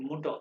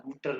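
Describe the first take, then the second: First: मुटो with the r dropped, ending on an open o; right pronunciation. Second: मुटर with the final r sounded, the wrong way; wrong pronunciation. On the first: Teacher gives class the correct German Mutter, r dropped. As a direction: say मुटो, no r at the end. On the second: Teacher warns class against saying it with the r, marked wrong. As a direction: say मुटर ending on a clear r. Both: Shown as a demonstration. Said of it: "इसको आर को मुटर नहीं कहना".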